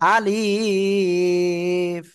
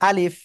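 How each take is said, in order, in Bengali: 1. শব্দটি ধীরে ও টেনে বলা হয়েছে। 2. শব্দটি দ্রুত ও ছোট করে বলা হয়েছে। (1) "কোনোভাবে আমরা কি ধীরে ধীরে পড়বো না। ... এভাবে পড়লে কি ভুল হয়ে যাবে।" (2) "আলিফ আমরা দ্রুত পড়বো।"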